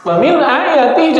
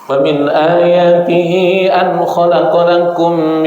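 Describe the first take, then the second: First: "Wa min ayatihi" spoken high and crisp, not chanted; explaining the verse. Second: Slow, drawn-out chanted tilawah; Quran recitation. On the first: Shown as a demonstration. Preacher quoting the verse again to translate it, spoken high. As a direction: pick the phrase up again to explain it. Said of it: "dan dari sebagian tanda". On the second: Acted. Preacher reciting the wedding verse, slow chanted tilawah. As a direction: chant the verse slowly, stretching the vowels.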